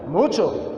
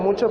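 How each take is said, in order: First: It is said with enthusiasm and energy. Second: It is said listlessly, without energy.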